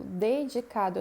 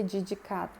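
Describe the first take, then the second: First: "dedicado" starting with a clear "deh"; DE pronunciado como "de". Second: "dedicado" starting with "djee"; pronúncia errada com "dji". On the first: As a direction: say "dedicado" as de-dji-CA-do. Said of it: "É dedicado mesmo". ("dedicado" com "de" claro no início) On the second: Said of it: "eu não vou dizer dedicado". ("dedicado" errado, como "djidjicado") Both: Shown as a demonstration.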